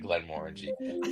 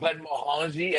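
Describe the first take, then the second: First: The name is pronounced with English-style sounds. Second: The name is pronounced with French-style sounds. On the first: The speaker calls it right. "I would have given you your flowers" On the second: The speaker calls it wrong. "it was French"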